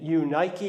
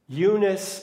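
First: The last syllable has a k sound. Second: The last syllable has an s sound. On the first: "in Greek" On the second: "in the English pronunciation"

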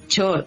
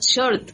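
First: The word begins with a Venezuelan ch sound. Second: The word begins with a soft sh sound.

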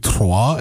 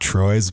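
First: The name is said with a French pronunciation. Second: The name is said with an English pronunciation. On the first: The speaker calls it right. "It's a little bit closer to Troyes" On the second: The speaker calls it wrong. "and not Troyes"

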